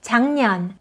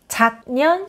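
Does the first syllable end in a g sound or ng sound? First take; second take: ng sound; g sound. First: The first syllable ends in an ng sound. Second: The first syllable ends in a g sound. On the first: The speaker calls it right. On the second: The speaker calls it wrong.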